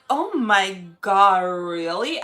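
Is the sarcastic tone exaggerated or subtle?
exaggerated. The sarcasm is heavy and exaggerated. The speaker calls it wrong. "if your tone is too sarcastic, it's corny"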